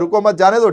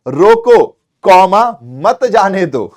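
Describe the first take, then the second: First: The phrase runs on without a pause. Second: There is a break after the first word. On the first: Don't stop him; let him go. The speaker calls it wrong. "ठीक है भाई जा" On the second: Stop him; don't let him go. The speaker calls it right.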